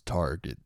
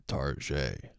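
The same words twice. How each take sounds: First: Said in the usual way. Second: Target as "tar-ZHAY"; mock-French pronunciation. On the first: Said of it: "when people pronounce Target". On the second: Shown as a demonstration. Host comparing a surname to the store, mock-French pronunciation. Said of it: "like when people pronounce Target".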